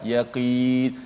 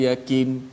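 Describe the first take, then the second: First: The final long vowel is held for two counts. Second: The final long vowel is cut too short. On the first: The speaker calls it right. "Pokoknya dua harakat" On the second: The speaker calls it wrong. "tak boleh macam tu"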